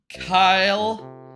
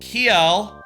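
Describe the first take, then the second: First: The vowel sounds like 'eye', as in Kyle. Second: The vowel sounds like 'ee', as in keel. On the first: The speaker calls it wrong. "Not Kyle" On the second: The speaker calls it right. "That's probably how you say it"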